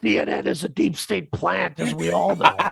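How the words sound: It is said in a put-on character voice.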